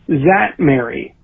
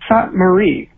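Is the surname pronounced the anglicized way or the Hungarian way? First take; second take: anglicized; Hungarian. First: The surname is said with anglicized English sounds. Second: The surname is said with Hungarian sounds. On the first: "my family has been saying since Ellis Island" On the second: "I've asked them to, like, really coach me on the pronunciation. And so I believe that this is the very best I can do at it"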